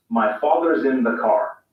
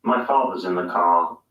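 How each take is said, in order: First: Slow American accent with sounded R; American rhotic delivery. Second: British non-rhotic delivery; British accent. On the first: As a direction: pronounce the R in father's and car, American style. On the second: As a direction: lower British accent, R dropped. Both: Shown as a demonstration. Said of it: "Listen to the difference".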